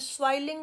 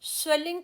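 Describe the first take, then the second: First: The first vowel sounds like 'ay'. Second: The first vowel sounds like 'eh'. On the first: The speaker calls it wrong. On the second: The speaker calls it right.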